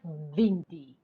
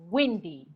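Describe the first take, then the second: First: The word starts with a v-like sound. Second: The word starts with a rounded w sound. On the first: The speaker calls it wrong. "It's not windy" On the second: The speaker calls it right. "It's windy, windy, windy"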